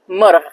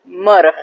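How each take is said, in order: No difference in how they are said.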